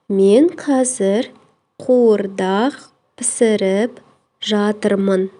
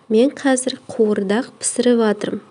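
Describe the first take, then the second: First: The verb is said in its full, uncontracted form. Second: The verb is said in a shortened, contracted form.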